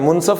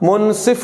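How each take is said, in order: First: The last syllable has an 'a' vowel. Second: The last syllable has an 'i' vowel. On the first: The speaker calls it wrong. "मुनसफ नहीं होता" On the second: The speaker calls it right. "मुनसिफ होता है"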